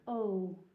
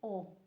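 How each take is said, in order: First: The vowel is said the English way. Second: The vowel is said the Italian way. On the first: The speaker calls it wrong. "you would think O" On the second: The speaker calls it right. "it's just an O"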